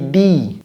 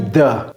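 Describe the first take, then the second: First: The word has a long 'ee' vowel. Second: The word has a short, reduced 'uh' vowel. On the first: The speaker calls it right. "j'ai dit the" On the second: The speaker calls it wrong. "j'ai pas dit the"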